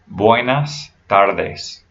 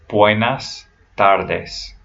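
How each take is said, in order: No difference in how they are said.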